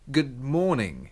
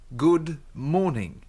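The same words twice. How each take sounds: First: It is said fast. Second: It is said slowly.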